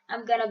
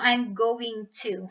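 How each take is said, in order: First: It is reduced to 'gonna'. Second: It is said in full as 'going to'. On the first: This is casual conversational slang. "Instead of saying gonna" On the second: This is formal English. "iyon yung formal English"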